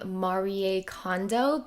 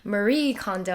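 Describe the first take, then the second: First: The name is said with a Japanese pronunciation. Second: The name is said with an American pronunciation. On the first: This is how she says her own name. "I think that's the Japanese pronunciation" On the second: This is how most English speakers say it. "all the Americans call her"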